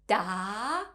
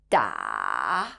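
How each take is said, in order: First: The pitch rises steadily to a high level. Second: The pitch dips low and then rises again. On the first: "The second tone, has a rising tone" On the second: "falling down first before going back up"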